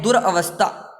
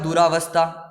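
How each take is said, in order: First: दुरवस्था with a short a after the r; correct short vowel. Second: दुरावस्था with a long aa after the r; wrong long vowel. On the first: Teacher giving students the correct word, दुरवस्था with short a. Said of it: "यहाँ पे ये है". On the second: Teacher citing the mistaken word, दुरावस्था with long aa. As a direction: stretch the "raa" in दुरावस्था. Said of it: "लेकिन यहाँ पे ये नहीं है". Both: Shown as a demonstration.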